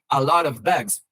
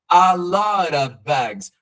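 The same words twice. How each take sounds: First: The words run together with a clear v sound. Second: The words run together with 'of' reduced. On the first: "enfatizando um V" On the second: "eu coloquei a lot, porque é o jeito como o nativo vai falar"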